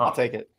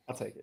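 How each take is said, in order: First: Said in the usual way. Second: Dropped to a quiet mumble; muttered. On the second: Real, not acted. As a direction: mutter it to yourself. Muttered repeat.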